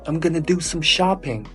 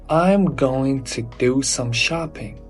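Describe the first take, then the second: First: 'Going to' is reduced to 'gonna'. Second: 'Going to' is said in full, unreduced. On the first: The speaker is a native speaker. The speaker calls it right. "They say" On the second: The speaker is not a native speaker. The speaker calls it wrong. "Native speakers never say it"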